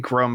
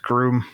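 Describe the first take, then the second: First: The vowel in the name is short. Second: The vowel in the name is long. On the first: "it could be Grum" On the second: "the long U sound"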